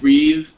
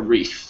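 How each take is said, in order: First: The final th sound is voiced. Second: The final th sound is unvoiced. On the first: It is used as a verb. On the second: It is used as a noun.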